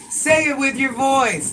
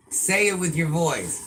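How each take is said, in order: First: High, loud and slow, every word pressed; slow loud demand. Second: Said in the usual way. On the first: Real, not acted. Parent ordering child to speak aloud, slow loud demand. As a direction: demand he use his voice, slowly and loudly.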